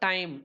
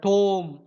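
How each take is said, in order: First: The vowel sounds like eye. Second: The vowel sounds like oh. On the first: This is the modern pronunciation. "Modern இங்கிலீஷ்ல நம்ம டைம் அப்படின்னு pronounce" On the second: This is a later historical pronunciation. "Shakespeare பேர்ல டோம் அப்படின்னு pronounce பண்ணியிருக்காங்க"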